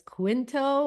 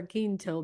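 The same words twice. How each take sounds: First: Quinto said with a KW sound, KWIN-toh; anglicized pronunciation. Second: Quinto said with a plain K, KEEN-toh; Spanish pronunciation. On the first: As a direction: say Quinto the English way, starting "kwin". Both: Shown as a demonstration. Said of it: "but Quinto's the Spanish way".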